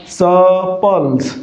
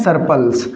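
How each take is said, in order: First: सपल्स slow and drawn out, r silent; British pronunciation. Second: सरप्लस said with a clear r sound; common mispronunciation. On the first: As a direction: stretch सपल्स very slowly, dropping the r. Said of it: "इसका उच्चारण क्या होगा?". (सपल्स, धीरे-धीरे, आर की ध्वनि के बिना) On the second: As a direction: voice the r in सरप्लस as students wrongly do. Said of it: "आप उच्चारण क्या करते हैं?". (सरप्लस, आर बोलते हुए गलत उच्चारण) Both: Shown as a demonstration.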